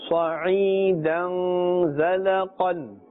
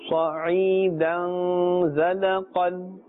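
No difference in how they are said.

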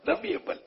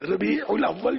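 First: The middle syllable 'ul' is left out. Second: The middle syllable 'ul' is clearly pronounced. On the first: The speaker calls it wrong. "ربیع اول بولیں گے. یہ note کیا ہوگا" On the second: The speaker calls it right. "ربیع الاول جو نہیں بول سکتے"

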